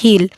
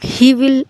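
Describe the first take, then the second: First: Will is reduced to an l sound. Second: Will is said as a separate full word.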